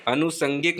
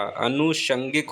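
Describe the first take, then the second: First: अनुषंगिक said as "anusangik", with s; wrong pronunciation. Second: अनुषंगिक said as "anushangik", with sh; correct pronunciation. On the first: Teacher showing the mistaken अनुषंगिक, mispronounced as "anusangik". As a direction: use a plain s in अनुषंगिक. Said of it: "अनुषंगिक नहीं होता". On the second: Teacher correcting अनुषंगिक, pronounced "anushangik". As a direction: use sh in the middle of अनुषंगिक. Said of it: "अनुषंगिक होता है". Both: Shown as a demonstration.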